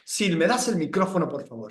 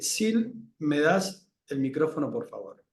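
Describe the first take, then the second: First: The tone is authoritarian and commanding. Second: The tone is neutral and emotionless.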